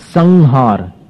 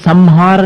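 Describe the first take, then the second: First: The nasal before haar is an ng sound. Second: The nasal before haar is an m sound. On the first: The speaker calls it right. "ङ बन जाता है अनुस्वार का" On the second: The speaker calls it wrong. "अपन संहार नहीं बोलते"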